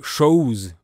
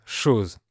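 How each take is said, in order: First: CHOSE with its o gliding into ou; Quebec O diphthong. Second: Said in the usual way. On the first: Shown as a demonstration. Teacher showing Quebec vowels, CHOSE said as cho-ouse. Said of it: "la lettre O se prononce O-ou". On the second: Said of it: "pour dire chose".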